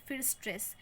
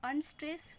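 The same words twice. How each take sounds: First: फिर stress dropped with a falling close; फिर stress settled, falling; falling beat. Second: unstress lightly, rising; light rising beat. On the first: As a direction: land stress down like a strong beat. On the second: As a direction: toss unstress up like a weak beat. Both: Shown as a demonstration. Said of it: "foot की बात करूँ तो सबसे पहले".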